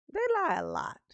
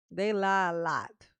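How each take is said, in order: First: "They lie a lot" said higher, with stress on "lot"; повторяет «They lie a lot» выше и с нажимом; higher emphatic repeat. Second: Said in the usual way. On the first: Real, not acted. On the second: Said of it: "repeated louder".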